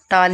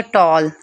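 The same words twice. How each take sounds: First: टाल with open "aa"; unrounded vowel in टाल; wrong pronunciation. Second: टॉल with rounded "aw"; long round vowel in टॉल; correct "o" sound. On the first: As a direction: say टाल as "taal". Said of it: "टाल नहीं पढ़ेंगे". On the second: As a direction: say टॉल as "tawl". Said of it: "same ऐसे पढ़ेंगे". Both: Shown as a demonstration.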